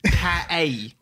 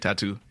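First: It is said in an imitated Australian accent. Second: It is said in the speaker's plain accent.

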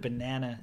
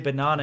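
First: The word is said in an American accent. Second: The word is said in a non-American accent. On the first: "instead of banana" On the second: "Where we say banana"

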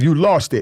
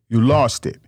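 First: It is said at a faster pace. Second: It is said at a slower pace.

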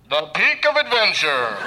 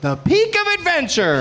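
First: It is said in a dramatic, old-time announcer voice. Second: It is said in a plain, ordinary voice.

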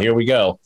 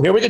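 First: It sounds weary and reluctant. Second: It sounds upbeat and encouraging. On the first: The speaker is bracing for trouble. "it's not an encouraging here and we go" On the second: The speaker is welcoming the person up. "I wasn't giving her a wave like"

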